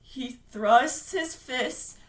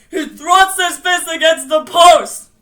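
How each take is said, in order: First: Slow, drawn-out words; laboured recitation. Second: Forceful, drawn-out declaiming shout; loud cry. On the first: Bill reciting against the monster, slow and laboured. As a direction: force out each word slowly. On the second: Bill defying the monster, crying out forcefully. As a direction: bellow it like someone else's voice. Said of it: "Bill cried. His voice was deeper". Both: Acted.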